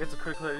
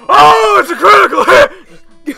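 First: It is said plainly and calmly. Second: It is said loudly, like yelling.

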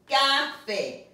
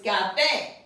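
First: The stress is on the first syllable. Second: The stress is on the last syllable. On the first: The speaker calls it wrong. "Without the accent, it would be café. But that's not the way you pronounce it" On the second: The speaker calls it right. "It's café"

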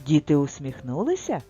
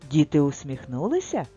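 First: It is said with a questioning tune. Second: The same.

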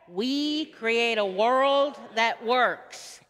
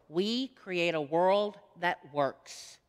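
First: It is said with joy and passion. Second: It is said plainly, without much energy.

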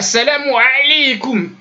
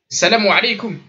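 First: The ayn sound is said with heavy force. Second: The ayn sound is said lightly, without force. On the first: The speaker calls it wrong. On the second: The speaker calls it right.

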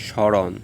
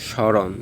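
The two takes are said the same way.

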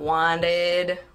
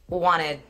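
First: The middle consonant sounds like a D. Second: The middle consonant does not sound like a D. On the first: The speaker calls it wrong. "it's not wanted with a D" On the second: The speaker calls it right. "it's just wanted"

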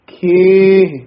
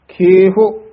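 First: The word ends without an added vowel. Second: The word ends with an added u-like vowel. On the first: The speaker calls it right. "ਇਹ ਉਚਾਰਨ ਹੈ" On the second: The speaker calls it wrong. "ਔਂਕੜ ਨਹੀਂ ਲਾ ਦੇਣਾ"

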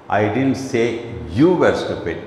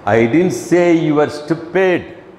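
First: The stress is on the word you. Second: The stress is on the word stupid.

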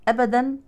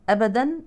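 The two takes are said the same way.

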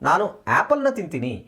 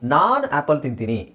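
First: The stress falls on the word for apple. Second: The stress falls on the word for I. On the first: It is apples that are eaten, not oranges. "ಆಮೇಲೆ apple ಮೇಲೆ stress ಹಾಕ್ತಾ ಇದ್ದೀವಿ" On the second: The speaker eats apples, unlike another person. "ನಾನು ಅವನು ಮೇಲೆ ಒತ್ತಡ ಕೊಡ್ತಾ ಇದ್ದೀವಿ"

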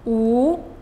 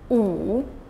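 First: The pitch rises from mid to high. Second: The pitch dips low, then rises.

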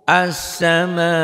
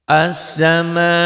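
The two takes are said the same way.

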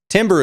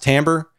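First: The first syllable sounds like 'tim'. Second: The first syllable sounds like 'tam'. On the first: The speaker calls it wrong. "timbre is what it looks like" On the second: The speaker calls it right. "but it's pronounced timbre"

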